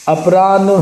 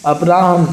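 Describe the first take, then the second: First: अपराह्न said as "apraanh"; wrong n before h. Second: अपराह्न said as "apraahn"; correct h before n. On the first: Teacher shows the mistake, अपराह्न as "apraanh". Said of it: "अपराह्न नहीं". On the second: Teacher gives the right order, अपराह्न as "apraahn". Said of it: "ये होता है". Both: Shown as a demonstration.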